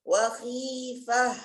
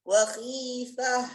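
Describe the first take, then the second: Both takes have the same delivery.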